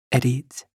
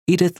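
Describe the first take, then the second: First: "Edith." said the French way, ay-DEET, with a hard t; "Edith." in French, stress on the end, no th; "Edith." with an effortless French accent, ending in t; French pronunciation. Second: Said in the usual way. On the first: Acted. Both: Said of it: "her lover's name comes out French".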